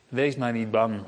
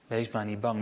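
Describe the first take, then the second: First: Softer, lower and reassuring; soft comfort. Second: Much softer, lower, almost breathed; near hush. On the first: Jesus comforting disciples in the storm, low and gentle. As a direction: hush them gently, not afraid. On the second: Jesus repeating his comfort to the disciples, fading very soft. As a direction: let it fade to a gentle hush. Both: Acted.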